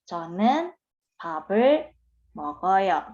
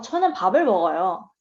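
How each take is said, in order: First: It is said carefully, the way learners say it. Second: It is said naturally, the way native speakers say it. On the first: "kalau kita ngomong kan" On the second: "secara drama kita lihat dia denger kayak oh"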